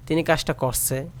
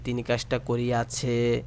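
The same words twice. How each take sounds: First: Said in the usual way. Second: করিয়াছে said in full as ko-ri-ya-chhe; long sadhu verb form. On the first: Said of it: "এ কথা না বলে". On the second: Shown as a demonstration. Teacher contrasting formal with everyday verb. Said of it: "এ কথা না বলে যেগুলো করিয়াছে".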